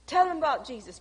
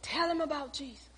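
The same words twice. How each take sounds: First: Said in the usual way. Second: Soft, murmured plea under the breath; a quiet inner prayer, barely voiced. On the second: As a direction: pray it softly to yourself. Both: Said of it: "And I'm sitting there saying".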